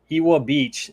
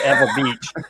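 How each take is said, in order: First: Pronounced the way an outsider says the name. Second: Pronounced the way a local says the name. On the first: The speaker is new to the place. The speaker calls it wrong. "there's nothing that says you're either a tourist or an F O B fresh off the boat than than when I hear someone say" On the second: The speaker belongs to the place. The speaker calls it right. "instead of"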